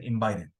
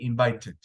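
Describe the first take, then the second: First: It is said with an American accent. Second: It is said with a British accent. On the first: "People in America, they say" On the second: "People in U K, they say"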